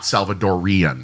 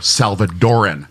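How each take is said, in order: First: It has an extra 'ee' syllable before the ending. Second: It has no extra 'ee' syllable before the ending. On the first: The speaker calls it wrong. "not Salvadorian" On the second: The speaker calls it right. "It's El Salvadoran or Salvadoran"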